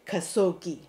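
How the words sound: The name is pronounced the American way. "in America, the reporter will be keep saying"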